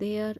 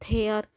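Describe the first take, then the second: First: The word begins with a d sound. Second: The word begins with an aspirated t sound. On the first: The speaker calls it right. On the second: The speaker calls it wrong.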